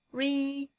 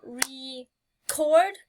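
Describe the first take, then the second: First: Said in the usual way. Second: Record split into two beats, re and cord; clapped out syllables. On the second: Shown as a demonstration. Teacher clapping out record for the class. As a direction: tap out re-cord beat by beat. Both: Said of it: "I can either clap it out".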